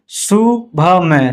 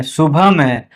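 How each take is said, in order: First: "शुभ में" slowly broken into syllables. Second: Said in the usual way. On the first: Shown as a demonstration. Teacher spelling out an example, "शुभ में" slow and split. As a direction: sound out "शुभ में" piece by piece.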